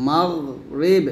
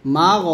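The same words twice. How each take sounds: First: মাগরিব said in full with the guttural গ from the throat; correct way. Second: মাগ said flat and short, without the guttural sound; wrong way. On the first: A teacher following the wrong reading with the right one. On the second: A teacher showing the wrong reading to avoid. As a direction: clip মাগ carelessly, as the mistake. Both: Shown as a demonstration. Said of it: "এরকম না কিন্তু".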